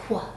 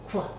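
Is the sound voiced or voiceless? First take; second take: voiced; voiced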